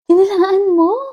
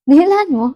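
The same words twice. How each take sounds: First: The question sounds warm and supportive. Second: The question sounds mocking and sarcastic.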